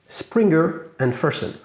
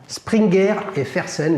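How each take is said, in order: First: The name is said with an English-sounding accent. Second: The name is said with a fully French accent.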